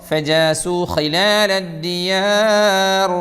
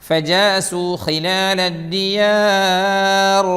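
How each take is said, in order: Both takes have the same delivery.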